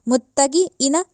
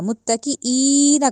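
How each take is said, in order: First: The vowel after the k is short. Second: The vowel after the k is lengthened. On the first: The speaker calls it wrong. "नहीं कहा जाएगा" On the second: The speaker calls it right. "कहा जाएगा, क्योंकि यह मद आ गई है"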